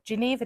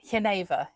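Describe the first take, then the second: First: The word is given a British pronunciation. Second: The word is given a Dutch pronunciation. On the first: "is the British way of pronouncing it" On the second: "is how they pronounce it in the Netherlands"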